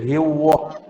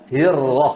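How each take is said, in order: First: The r is made with rounded lips, like w. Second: The r is tapped with the tongue only. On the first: The speaker calls it wrong. "Tidak bunyi macam waw. Macam hiwah, hiwah tu bibir punya pasal" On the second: The speaker calls it right. "Huruf ra hanya lidah"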